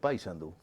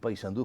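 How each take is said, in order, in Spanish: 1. El acento cae en la sílaba con la A. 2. El acento cae en la sílaba final, la U. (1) "acentúan la A" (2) "La acentuación va en la U"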